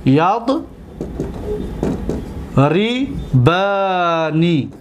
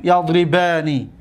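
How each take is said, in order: First: Very slow, broken into syllables; long pause, then drawn-out syllables; syllable-by-syllable dictation. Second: Said in the usual way. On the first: Shown as a demonstration. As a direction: sound it out slowly as if writing. Teacher sounding out the word while writing.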